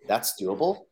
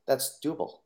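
First: "That's doable?" as a rising, incredulous question; disbelief. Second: Said in the usual way. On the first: Retold or imitated. Kid echoing the coach in surprised disbelief, rising question. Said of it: "I'm like". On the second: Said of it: "and says".

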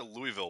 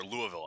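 First: Louisville said the outsider's way, Louie-ville; Louisville with a clear "ee" in the middle; first pronunciation of Louisville. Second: Louisville said the local way, Loo-uh-vul; Louisville as the locals say it, without "ee"; corrected pronunciation of Louisville. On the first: Real, not acted. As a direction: say Louisville as LOO-ee-vil. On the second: Shown as a demonstration. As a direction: soften Louisville's middle to "uh". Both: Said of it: "or Louisville. I apologize".

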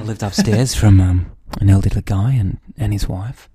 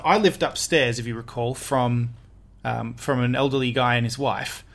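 First: Low, loud hammed-up delivery; deep put-on voice with halting ums; mock creepy guy. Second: Low, soft, hesitant creepiness; quietly creepy, with halting pauses. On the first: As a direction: redo it in an exaggerated deep voice. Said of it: "I was a creepy guy". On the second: Real, not acted. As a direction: say it a touch creepily, trailing low. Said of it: "Why'd you say it so creepily?".

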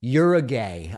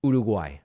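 First: Uruguay mangled as YUR-uh-gay; Uruguay with an American r and a GAY ending; absurd American pronunciation. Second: Uruguay as oo-doo-GWAI, tapped r; Uruguay said the native Spanish way, falling; correct Spanish pronunciation. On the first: Retold or imitated. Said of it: "in what seem like absurd ways". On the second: Shown as a demonstration. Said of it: "reminder of the way that it's pronounced".

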